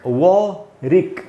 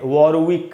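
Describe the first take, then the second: First: No 'w' sound is heard in the middle. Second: A 'w' sound is heard in the middle. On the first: The speaker calls it right. "ये जो डब्ल्यू है वो silent है" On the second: The speaker calls it wrong. "पर दोस्तों वो है नहीं"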